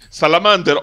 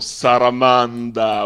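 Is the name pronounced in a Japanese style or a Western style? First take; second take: Western; Japanese. First: The name is said in a Western style. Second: The name is said in a Japanese style. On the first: "o come vuoi pronunciarlo" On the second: "utilizzando un ateji, ovvero uno di quei giochi di parola alla giapponese"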